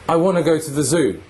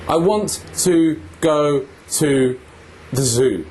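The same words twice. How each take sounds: First: The small words are reduced to weak forms. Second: The small words keep their full vowels.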